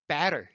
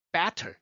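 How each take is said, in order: First: Better as "be-rer", barely any air; relaxed American flap in better; flapped T. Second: Better with a crisp released T; aspirated T in better; puffed T. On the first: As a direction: tap the T of better like an R. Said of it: "살짝 움직입니다". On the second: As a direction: blow air on the T of better. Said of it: "Better 하면요". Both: Shown as a demonstration.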